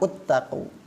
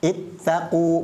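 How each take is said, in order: First: The word begins with a u vowel. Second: The word begins with an i vowel. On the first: The speaker calls it wrong. "bukan uttaqu" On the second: The speaker calls it right. "harusnya dibaca ittaqu"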